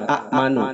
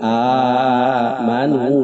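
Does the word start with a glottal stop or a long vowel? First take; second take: glottal stop; long vowel. First: The opening vowel is cut by a glottal stop. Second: The opening vowel is held long and smooth. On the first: This is the original form with two hamzas. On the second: The second hamza is replaced by a lengthened alif. "diganti ku alif jadi panjang"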